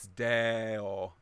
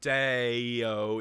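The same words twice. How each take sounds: First: The vowels are pure, without gliding. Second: The vowels glide as diphthongs. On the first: The speaker calls it right. "it's just moving from one vowel sound to the other" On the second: The speaker calls it wrong. "Try and avoid diphthongs, so we don't want deo"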